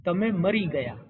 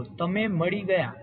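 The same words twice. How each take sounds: First: "તમે મરી ગયા" read with a plain r in મરી instead of ળ; contrasting read-aloud. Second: "તમે મળી ગયા" read slowly, with a clear retroflex ળ in મળી; careful read-aloud. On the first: Instructor reads trainees the changed sentence, r in મરી clear. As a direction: say મરી with a clear r where ળ would be. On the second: Instructor reads trainees the sentence carefully, ળ in મળી clear. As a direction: sound મળી with a distinct ળ and no r. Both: Shown as a demonstration. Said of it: "અળની જગ્યાએ ર".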